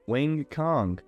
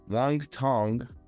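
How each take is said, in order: First: The second name starts with a K sound. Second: The second name starts with a T sound. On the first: The speaker calls it right. "It's not Tong, not T. C. Kong" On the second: The speaker calls it wrong. "as the commentary was calling her"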